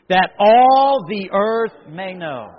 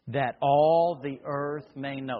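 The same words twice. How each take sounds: First: It is said louder, like a battle cry. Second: It is said at normal volume.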